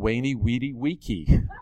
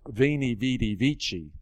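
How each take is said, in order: First: It uses the classical style of Latin pronunciation. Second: It uses the Italian style of Latin pronunciation. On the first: The speaker calls it wrong. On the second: The speaker calls it right.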